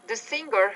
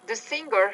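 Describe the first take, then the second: No difference in how they are said.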